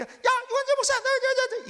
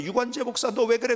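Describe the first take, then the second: First: Very high, harsh accusing yell; Satan's voice. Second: Restrained, measured call to a pastor; God's voice calling. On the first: Satan accusing the pastor by name, high-pitched frantic shout. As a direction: shriek the name, then jab out each repeated word. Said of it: "사탄의 소리예요". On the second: God calls the pastor by name, in a restrained voice. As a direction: call him by name without shouting. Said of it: "하나님의 소리는요, 이런 소리, 저를 부를 때". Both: Shown as a demonstration.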